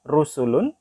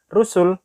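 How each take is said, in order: First: The word ends with a full vowel and n. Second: The word ends sharply on a bare consonant. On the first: "ada kata rusulun" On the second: "karena dia ada di akhir ayat dibaca rusul"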